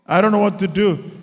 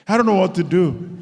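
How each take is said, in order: Both takes have the same delivery.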